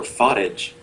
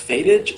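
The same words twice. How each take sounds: First: Fatage, first syllable like father; Fatage as FAH-tij. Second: Fatage, first syllable rhyming with day; Fatage as FAY-tij. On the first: Offering the other pronunciation of the name, Fatage as FAH-tij. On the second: Asking how a member's name is pronounced, Fatage as FAY-tij. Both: Shown as a demonstration. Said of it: "is it pronounced".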